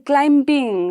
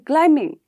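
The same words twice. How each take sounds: First: The B sound is pronounced. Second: The B sound is left out. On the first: The speaker calls it wrong. "we don't say climbing" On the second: The speaker calls it right. "We say climbing"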